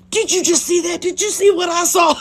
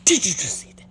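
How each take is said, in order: First: Much higher, louder, thrilled amazement; excited exclamation. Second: Breathy, whispered amazement; awed whisper. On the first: Teen reacting to what she just saw, thrilled exclamation. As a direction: burst out as if it's an incredible spectacle. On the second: Teen reacting to what she just saw, awed whisper. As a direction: whisper it as if stunned by the sight. Retold awestruck first reaction to shooting. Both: Retold or imitated.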